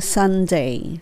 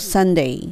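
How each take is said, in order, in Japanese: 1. その単語は、丁寧でしっかりした発音です。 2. その単語は、くだけたカジュアルな発音です。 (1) "歯の裏にベロを当てるSunday になりますね" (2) "ちょっと砕けるとSunday っていうね、Sunday レイみたいにしてなってもOK です"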